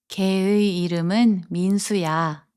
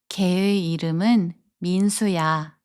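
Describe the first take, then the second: No difference in how they are said.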